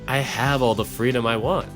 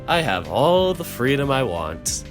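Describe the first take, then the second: First: It is said in a plainer, less acted voice. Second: It is said in a fuller, acted character voice. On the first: The speaker calls it wrong. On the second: The speaker calls it right.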